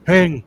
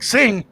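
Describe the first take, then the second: First: Loud, punchy one-word order; retold command. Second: Higher, loud startled question; incredulous echo. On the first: Friend Bacon ordering him to sing, a loud retold command. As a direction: bark it like shoving a mic at someone. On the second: Retold or imitated. Him echoing Bacon's order to sing, in startled disbelief. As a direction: throw the word back in disbelief.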